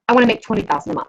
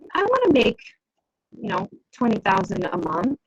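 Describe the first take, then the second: First: The pitch falls at the end, like a statement. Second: The pitch rises at the end, like a question. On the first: The speaker is sure it can be done. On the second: The speaker is not sure it can be done.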